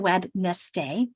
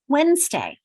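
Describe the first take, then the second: First: Every written letter and syllable is pronounced. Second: The word is said in a shortened, reduced form. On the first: This follows the spelling, not everyday speech. "We don't say Wednesday" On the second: This is how people naturally speak. "but we say Wednesday"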